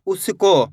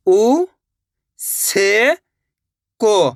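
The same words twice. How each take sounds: First: Said in the usual way. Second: "उ ... से ... को", each drawn out with a pause after; letter by letter. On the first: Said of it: "तो मिलके बन जाएगा". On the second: Shown as a demonstration. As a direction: sound out "उ से को" one part at a time. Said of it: "तो मिलके बन जाएगा उसको". ("उ ... से ... को" अलग-अलग, खींचकर)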